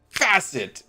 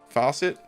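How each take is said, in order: First: The first vowel sounds like 'a' in 'cat'. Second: The first vowel sounds like 'aw' in 'saw'. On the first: The speaker calls it right. "facet sounds normal. Uh, that, like that sounded better" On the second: The speaker calls it wrong. "I always thought they were faucets instead of facets"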